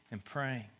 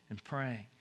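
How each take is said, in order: Both takes have the same delivery.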